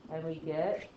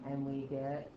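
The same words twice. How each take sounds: First: "and we get" with a rise on "get"; inflected ending. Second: "and we get" low, soft and level; no inflection. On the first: Teacher slipping into inflection on "get". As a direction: let "get" lift at the end. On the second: Teacher correcting herself, "and we get" without inflection. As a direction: keep "get" level, with no lift. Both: Shown as a demonstration. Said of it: "ooh, that was inflecting".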